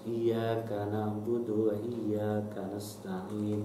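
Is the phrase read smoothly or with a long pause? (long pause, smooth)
smooth. It is read smoothly without a long pause. The speaker calls it right.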